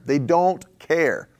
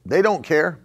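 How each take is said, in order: First: Each word dragged out, very slow; slow, heavy preacher's repeat; slow emphatic repeat. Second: Said in the usual way. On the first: Acted. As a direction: let it sink in slowly.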